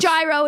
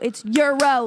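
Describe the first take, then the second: First: The word does not sound like the currency. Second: The word sounds like the currency euro. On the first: The speaker calls it wrong. "It's not gyro" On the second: The speaker calls it right. "It's euro, like the money"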